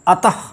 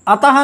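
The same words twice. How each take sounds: First: अतः ending in a short breath; correct visarga. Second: अतः with a full ha syllable; wrong visarga. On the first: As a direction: say अतः with a light visarga, no ha syllable. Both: Shown as a demonstration. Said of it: "ह नहीं आना चाहिए".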